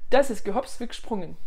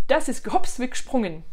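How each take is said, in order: Both takes have the same delivery.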